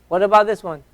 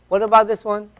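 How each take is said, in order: The two takes are said the same way.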